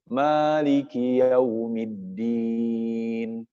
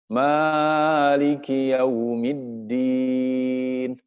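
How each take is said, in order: First: The first vowel 'ma' is held briefly. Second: The first vowel 'ma' is stretched very long. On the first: The speaker calls it right. "Harusnya dua harakat" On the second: The speaker calls it wrong. "ma-nya kepanjangan"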